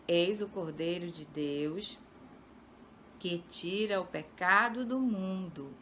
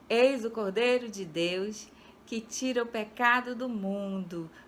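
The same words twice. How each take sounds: First: The verse is read in a calm tone. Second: The verse is read in a joyful tone.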